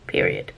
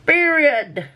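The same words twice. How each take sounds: First: Very low, growled "Period."; deep sassy period. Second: High, finger-snap "Period." with a fall; high sassy period. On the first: Vlogger ending her rant, deep and mock-stern. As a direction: drop the voice right down for "Period.". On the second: Vlogger ending her rant, high and sassy. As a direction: squeal "Period." like a sassy diva. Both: Pretend.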